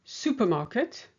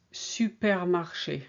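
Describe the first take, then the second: First: Supermarket in plain English, a bit higher; English Supermarket for contrast; English word. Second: Supermarché slowly, every syllable clear; French pronunciation. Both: Shown as a demonstration.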